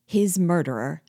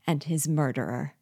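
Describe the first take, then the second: First: Louder, shocked question; appalled narrated exclamation; horrified outburst. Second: Restrained, mildly hoarse admission; a touch of hoarse menace; hoarse confession. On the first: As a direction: recoil in horror as you repeat it. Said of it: "I recoiled in horror". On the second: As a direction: state it grimly, without raising the voice. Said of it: "said hoarsely". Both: A narrator's reading.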